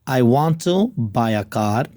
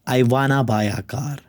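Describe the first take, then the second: First: Want to is said as two full words. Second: Want to is blended into one word, wanna.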